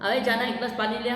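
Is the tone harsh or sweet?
harsh. It is said in a rough, commanding tone.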